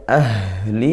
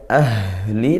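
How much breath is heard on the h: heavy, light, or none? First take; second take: heavy; heavy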